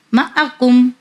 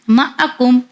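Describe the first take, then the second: No difference in how they are said.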